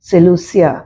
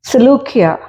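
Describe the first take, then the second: First: The consonant before the ending is an s sound. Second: The consonant before the ending is a k sound.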